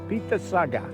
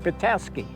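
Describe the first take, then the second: First: The name ends with a 'saga' sound. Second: The name ends with a 'skey' sound. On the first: This is the chief's original name. "if I'm pronouncing that pretty close" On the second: This is the settlers' adapted form. "the Europeans, when they came, phonetically pronounced it Petoskey"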